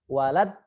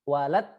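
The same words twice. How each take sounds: Both takes have the same delivery.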